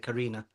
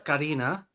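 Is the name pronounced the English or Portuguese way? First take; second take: English; Portuguese. First: The name has an English pronunciation. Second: The name has a Portuguese pronunciation. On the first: "obviously you can't say the accent. Just say Karina" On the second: "in the Romanian Portuguese, it's Karina"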